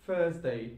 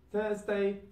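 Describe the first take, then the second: First: "Thursday" said as "Fursday". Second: "Thursday" with the TH kept, pitched high. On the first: Teacher showing learners Cockney British, "Thursday" with F for TH. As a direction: start "Thursday" on an F. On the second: Teacher giving the form before Cockney, "Thursday" with TH. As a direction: say "Thursday" high, without any F. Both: Shown as a demonstration. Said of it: "T H will turn into fur sound".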